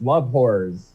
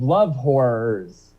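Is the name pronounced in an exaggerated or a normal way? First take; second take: normal; exaggerated. First: The name is pronounced with ordinary articulation. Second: The name is pronounced with exaggerated articulation.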